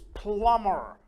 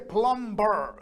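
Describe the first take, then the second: First: The B sound is left out of the word. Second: The B sound is pronounced in the word. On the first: The speaker calls it right. "The B is silent. It's plumber" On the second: The speaker calls it wrong. "We don't say plumber"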